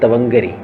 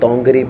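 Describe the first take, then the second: First: The word begins with a full 'ta-van' sound. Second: The word begins with a contracted 'ton' sound. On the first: "मैंने लफ्ज बोला आपसे" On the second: "मैं इसे तोंगरी पढ़ रहा हूं"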